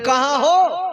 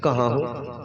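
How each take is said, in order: First: It is asked in an angry, threatening tone. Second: It is asked in a calm, relaxed tone.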